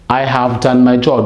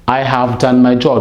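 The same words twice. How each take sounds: First: Have is said with a v sound. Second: The same.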